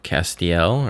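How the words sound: The name is said with an American pronunciation. This is how Americans would say it. "If you're an American"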